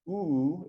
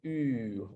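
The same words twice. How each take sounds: First: The vowel is made far back in the mouth. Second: The vowel is made toward the front of the mouth. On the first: "instead of" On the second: "it's something like oo"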